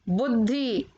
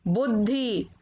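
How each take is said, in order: Both takes have the same delivery.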